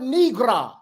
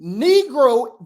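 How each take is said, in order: First: "negra" ending in an open "ah"; "negra", last vowel opened to "ah"; altered pronunciation. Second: Said in the usual way. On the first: Shown as a demonstration. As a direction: say "negra" with a final "ah", not "oh". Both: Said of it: "it's the word negra".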